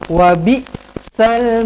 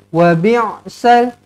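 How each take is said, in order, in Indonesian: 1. Hamzah yang ringan digunakan setelah 'bi'. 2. Bunyi ain yang berat di tenggorokan digunakan setelah 'bi'. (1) "Ini bukan huruf ain, ini huruf hamzah" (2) "Jangan baca macam ni. ... kita dah tukarkan huruf hamzah menjadi huruf ain"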